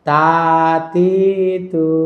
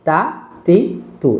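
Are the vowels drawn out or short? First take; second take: drawn out; short. First: Each vowel is stretched out long. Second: Each vowel is cut short and quick. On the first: The speaker calls it wrong. "টান দিয়ে এখানে বলা যাবে না" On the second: The speaker calls it right. "হারাকাতের উচ্চারণ সবসময় তাড়াতাড়ি করতে হবে"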